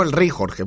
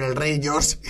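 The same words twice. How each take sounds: First: El rey Jorge with Spanish Jorge, a harsh throat sound on both j and g. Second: El rey George with English George, soft y sound, no harsh j. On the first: Shown as a demonstration. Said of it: "Están hablando del rey Jorge". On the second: Retold or imitated.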